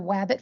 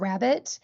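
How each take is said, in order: First: The word begins with a W sound. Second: The word begins with an R sound. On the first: A child with a speech sound error says it this way. The speaker calls it wrong. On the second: This is the intended target word. The speaker calls it right.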